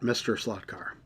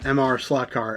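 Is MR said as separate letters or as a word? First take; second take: word; letters. First: MR is said as the word mister. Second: MR is said as two separate letters. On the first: The speaker calls it wrong. "not Mister Slot Car" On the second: The speaker calls it right. "that's how you pronounce it"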